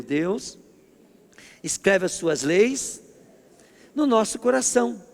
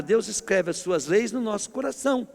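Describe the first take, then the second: First: Deus escreve as suas leis no nosso coração, said slowly with pauses between chunks; call-and-response line, slowly broken into chunks; slow, phrase by phrase. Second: Said in the usual way. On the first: Shown as a demonstration. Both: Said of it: "Diga comigo".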